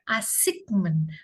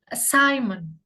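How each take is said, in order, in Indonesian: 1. Ada bunyi G di tengah. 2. Tidak ada bunyi G di tengah. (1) "Bukan assignment" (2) "silent letternya adalah G"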